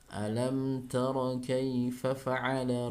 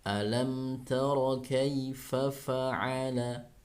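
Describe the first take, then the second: First: The phrase is recited hurriedly, in a rush. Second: The phrase is recited slowly and evenly. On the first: The speaker calls it wrong. "bukan seperti itu" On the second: The speaker calls it right. "dibaca dengan lambat namun tidak membuat ada unsur matnya"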